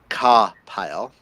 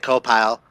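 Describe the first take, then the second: First: The first vowel has a southern drawl. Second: The first vowel has no southern drawl. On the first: "It's the southern accent" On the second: "I want to say co-pile"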